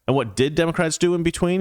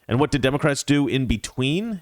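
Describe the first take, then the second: First: The word "did" is stressed. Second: The word "did" is not stressed.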